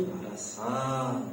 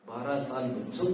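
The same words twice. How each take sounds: First: "साल" stretched long and slow; softly repeated, with "साल" held long; drawn-out emphasis. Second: Said in the usual way. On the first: Real, not acted. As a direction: drag out "साल" to let the years weigh.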